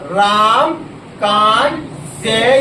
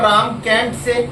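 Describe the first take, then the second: First: The vowel in can't sounds like father. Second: The vowel in can't sounds like cat. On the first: "दोनों ही बोल सकते हो, दोनों ही सही सही है।" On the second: "दोनों ही बोल सकते हो, दोनों ही सही सही है।"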